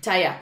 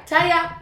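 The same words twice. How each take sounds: First: Said in the usual way. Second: "Taya" said high and loud, in grandma's Boston way; grandmother's accent. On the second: Shown as a demonstration. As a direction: mimic nana saying "Taya". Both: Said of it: "that's because of my grandmother".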